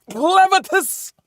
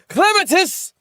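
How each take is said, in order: First: High, slow drawn-out shout of the name; drawn-out call. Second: High shouted call of a name, imitating the anime. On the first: Retold or imitated. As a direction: stretch the name out as a long call. Repeats name slower. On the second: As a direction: cry out the name like the show does. Calling out character name.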